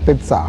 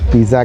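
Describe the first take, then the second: First: The word is said a different, alternative way. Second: The word is said the common local way. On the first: Some people claim this is the correct form. "इसका जो सही pronunciation है वो है पिज़्ज़ा" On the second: This is how most people here say it. "हम पिज़्ज़ा कहते हैं"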